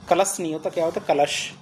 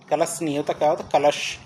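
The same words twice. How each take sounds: The two takes are said the same way.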